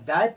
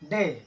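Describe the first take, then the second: First: The vowel sounds like 'eye'. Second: The vowel sounds like 'ay' in 'say'. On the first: The speaker calls it wrong. "गलत होगा" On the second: The speaker calls it right. "इस शब्द को हम पढ़ेंगे डे"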